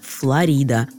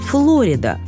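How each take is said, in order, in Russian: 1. Ударение на втором слоге. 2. Ударение на первом слоге. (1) "правильно, именно так, с ударением на второй слог" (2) "в английском языке ударение ставится на первый слог"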